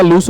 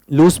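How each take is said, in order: First: "लूज" ending in a crisp unvoiced s, like loose. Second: "लूज" ending in a buzzed z; "लूज" as English lose, with a z sound; wrong Z ending. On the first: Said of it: "ये लूज नहीं बेटा, लूज होता है". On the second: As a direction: say "लूज" with a voiced z at the end. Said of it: "ये लूज नहीं बेटा". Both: Shown as a demonstration.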